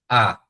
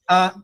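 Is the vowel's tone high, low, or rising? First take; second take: low; high. First: The vowel is said on a low tone. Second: The vowel is said on a high tone. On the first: "é baixo"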